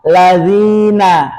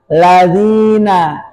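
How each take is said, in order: No difference in how they are said.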